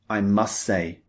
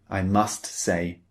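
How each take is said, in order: First: The T at the end of must is dropped. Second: The T at the end of must is pronounced. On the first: The speaker calls it right. "We omit it. We simply say" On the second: The speaker calls it wrong. "We don't often say, ... We don't emphasize the T sound"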